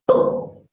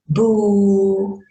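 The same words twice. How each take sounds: First: It is said exaggerated, with varied pitch and volume. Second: It is said flat, with little pitch or volume. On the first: The child will notice and listen. The speaker calls it right. "you're using different pitch, different tone, different volume" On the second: The child will not pay attention. The speaker calls it wrong. "they're not going to attend to you"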